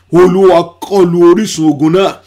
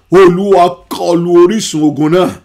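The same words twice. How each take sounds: The two takes are said the same way.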